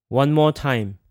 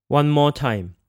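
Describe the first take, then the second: Both takes have the same delivery.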